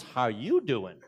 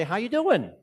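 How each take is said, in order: First: Boston accent reply, stress on you. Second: A big Boston "How you doing?"; Boston accent hello, pitched up; Boston greeting. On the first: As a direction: answer back with "How YOU doing?". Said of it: "the response is". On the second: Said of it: "I wanted from Boston ... to say". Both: Shown as a demonstration.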